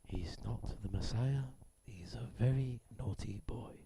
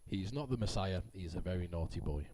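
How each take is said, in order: First: It is read like a nature documentary narrator. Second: It is read in a plain, boring way.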